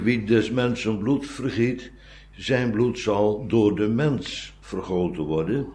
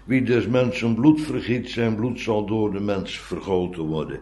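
First: The word 'mens' carries strong stress. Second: The word 'mens' carries no special stress.

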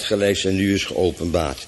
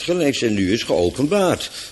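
First: The phrase is read flat, without any stressed word. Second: The phrase is read with a word clearly stressed. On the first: The reader does not grasp the meaning. The speaker calls it wrong. "En dan lees ik het nu zonder klemtoon, en net alsof ik niet weet wat er staat" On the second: The reader brings out the meaning. The speaker calls it right. "Want het moet natuurlijk zijn"

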